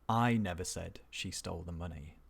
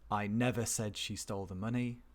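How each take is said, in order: First: The stress falls on the word I. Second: The stress falls on the word never. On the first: Someone else said it, not the speaker. "somebody said it, but not me" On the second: It has never once been said. "It stresses never"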